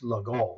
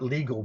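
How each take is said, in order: First: The name is pronounced the French way. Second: The name is pronounced the English way. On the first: The speaker calls it right. "it's legal. It's French" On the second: The speaker calls it wrong. "It's not legal mate"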